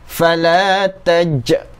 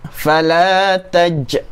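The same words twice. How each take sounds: The two takes are said the same way.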